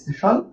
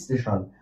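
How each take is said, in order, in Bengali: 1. শব্দটি সরাসরি 's' যুক্তব্যঞ্জন দিয়ে শুরু হয়। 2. 's'-এর আগে একটি অতিরিক্ত 'i' স্বরধ্বনি আসে।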